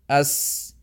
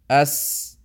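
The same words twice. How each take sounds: First: The s lets breath flow out freely. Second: The s lets breath flow out freely.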